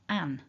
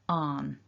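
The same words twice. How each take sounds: First: The vowel is short, like in 'cat'. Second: The vowel is long, like 'ah'. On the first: "many parts of England where you'll hear people say an" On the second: "the long R vowel"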